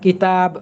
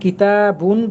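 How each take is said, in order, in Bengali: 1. শব্দটি শেষে শুধু একটি ব্যঞ্জনবর্ণে থামে। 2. শব্দটি পূর্ণ '-un' দিয়ে শেষ হয়। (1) "থেমে পড়ার নিয়ম হচ্ছে শেষাক্ষরে সাকিন করে দেয়া" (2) "তাহলে আমরা কিতাবুন বলতে পারি"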